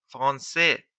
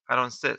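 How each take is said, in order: First: فرانسه said the French way, as frɑnse with no vowel after f; فرانسه in French, the f and r run together. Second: فرانسه said the Persian way, as færɑnse with a vowel after f; فرانسه in Persian, a clear vowel between f and r. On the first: Teacher to students, contrasting French and Persian pronunciation, French way. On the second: Teacher to students, contrasting French and Persian pronunciation, Persian way. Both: Shown as a demonstration.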